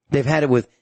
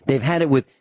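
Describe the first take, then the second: No difference in how they are said.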